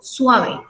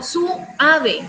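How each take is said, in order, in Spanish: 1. La palabra se dice en dos sílabas. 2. La palabra se divide en tres sílabas. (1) "yo digo suave" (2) "Yo no digo su ave"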